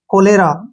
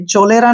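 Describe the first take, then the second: First: The word begins with a 'k' sound. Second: The word begins with a 'ch' sound. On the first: The speaker calls it right. "सी के बाद तुरंत बाद H आया है तो कै का उच्चारण बनेगा" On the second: The speaker calls it wrong. "चोलेरा नहीं पढ़ेंगे इसको"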